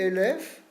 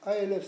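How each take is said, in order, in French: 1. La première voyelle est un son 'e'. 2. La première voyelle est un son 'a'. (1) "Il a changé la voyelle" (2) "au lieu de sur un patard"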